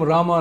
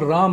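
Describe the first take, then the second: First: The name ends with an added a vowel. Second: The name ends on the consonant m. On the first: The speaker calls it wrong. "in English we add an A" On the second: The speaker calls it right. "the Sanskrit Hindi pronunciation"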